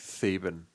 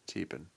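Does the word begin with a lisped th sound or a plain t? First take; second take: lisped th; plain t. First: The word begins with a lisped th sound. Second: The word begins with a plain t sound. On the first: The speaker calls it wrong. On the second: The speaker calls it right.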